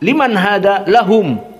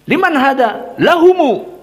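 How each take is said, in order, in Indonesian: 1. Huruf m di akhir tertutup, tanpa vokal. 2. Huruf m di akhir diikuti vokal u. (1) "membaca mim sukun ... disukunkan" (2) "Lalu bagaimana? ... seperti itu"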